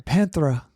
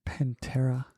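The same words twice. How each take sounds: First: "Panthera" with a th sound; "Panthera" as customers mangle it; mispronounced. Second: "Pantera" softly with a hard t; hushed "Pantera" with plain t; corrective pronunciation. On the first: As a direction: say "Panthera" with th in place of t. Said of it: "Sometimes people would say". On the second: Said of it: "I'm like". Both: Retold or imitated.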